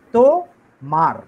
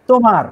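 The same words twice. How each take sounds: First: "তো, মার" as two separate syllables. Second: Said in the usual way. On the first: Shown as a demonstration. Splits word into metrical syllables.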